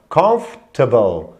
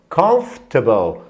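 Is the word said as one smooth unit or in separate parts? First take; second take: one unit; one unit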